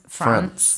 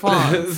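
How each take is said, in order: First: It is said with a northern English accent. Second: It is said with a southern English accent.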